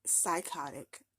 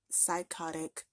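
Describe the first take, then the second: First: Psychotic drawn out slowly, falling. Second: Said in the usual way. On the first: Real, not acted. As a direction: drag out Psychotic as a flat verdict. Verdict after mocking quote.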